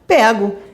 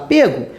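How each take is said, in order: First: The stressed vowel is an open e sound. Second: The stressed vowel is a closed e sound. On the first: "as vogais são abertas, vai se falar pego" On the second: "normalmente as vogais são fechadas, vai se falar pego"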